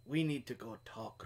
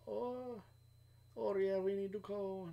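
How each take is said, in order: First: Said in the usual way. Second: A Puerto Rican accent attempt that drifts elsewhere, higher; failed Puerto Rican accent. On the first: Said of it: "And he'd do it in that accent". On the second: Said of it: "No, that's more Chinese".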